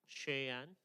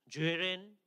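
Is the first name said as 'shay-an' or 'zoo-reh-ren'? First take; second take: shay-an; zoo-reh-ren. First: It sounds like two syllables, 'shay-an'. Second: It sounds like three syllables, 'zoo-reh-ren'. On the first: This is how the name is really said. The speaker calls it right. "앞부분의 이름은 쉐얀이라고 그래요" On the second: Some people say it this way. The speaker calls it wrong. "주레렌 이렇게 하는 사람들이 있어요. 예, 그거 아니에요"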